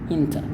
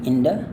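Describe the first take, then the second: First: The middle consonant is a clear T sound. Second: The middle consonant is a soft D sound. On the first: "T-nya tidak berubah" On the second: "bunyinya D ya, hanya D-nya D halus"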